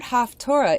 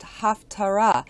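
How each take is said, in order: First: The middle vowel sounds like 'oh'. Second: The middle vowel sounds like 'ah'. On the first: The speaker calls it wrong. "most of us aren't even pronouncing it right" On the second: The speaker calls it right. "is actually supposed to be pronounced Haftarah"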